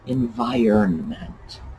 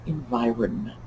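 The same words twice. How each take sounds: First: The middle contains a clear 'iron' sound. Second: The middle lacks a clear 'iron' sound. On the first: The speaker calls it right. "That root in there, iron" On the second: The speaker calls it wrong. "It's not environment"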